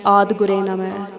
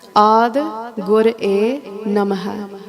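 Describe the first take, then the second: First: The phrase is said quickly, syllables run together. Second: The phrase is said slowly, each part kept separate. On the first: The speaker calls it wrong. "Let's not rush through the Bani and say" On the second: The speaker calls it right. "They wrote it very specifically so that it would resonate with us differently"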